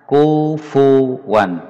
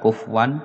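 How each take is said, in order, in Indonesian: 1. Ada vokal u pendek terdengar antara f dan w. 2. Tidak ada vokal terdengar antara f dan w. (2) "bukan kufwan"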